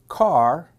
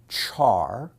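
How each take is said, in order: First: It starts with a k sound, rhyming with car. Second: It starts with a ch sound, rhyming with car. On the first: "some people pronounce it car" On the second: "Some people pronounce it char"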